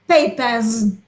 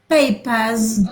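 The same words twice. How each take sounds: The two takes are said the same way.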